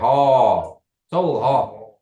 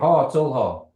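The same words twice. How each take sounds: First: There is a pause between the two words. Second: The words run together without a pause. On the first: It answers the question. "Then you want to pause" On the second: It asks a question. "You're asking the question"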